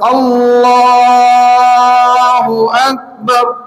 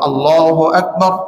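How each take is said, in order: First: The phrase is stretched out slowly. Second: The phrase is said short and quick. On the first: Followers may finish before the leader does. The speaker calls it wrong. "অনেক ইমাম সাহেবরা আছেন আল্লাহু আকবার বলেন এরকম" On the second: Followers start together with the leader. The speaker calls it right. "তাকবীর সংক্ষিপ্ত আল্লাহু আকবার এরকম করা"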